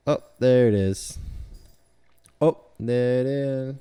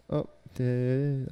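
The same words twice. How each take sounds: First: Loud, excited discovery. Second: Said in the usual way. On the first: Real, not acted. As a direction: call it out happily. Excited at finding it.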